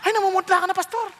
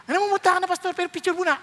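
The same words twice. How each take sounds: First: A light, teasing imitation of a worried fan; fussing churchgoer. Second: Higher mock fan, still wanting a photo; teasing imitation of a pushy fan; fussing churchgoer. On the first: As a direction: church member telling the pale pastor, hammed-up high voice. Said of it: "naglalapitan pa yung mga tao". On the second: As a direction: fan telling the pale pastor to pose first, higher voice. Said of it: "Tinapos ng Lord yung preaching".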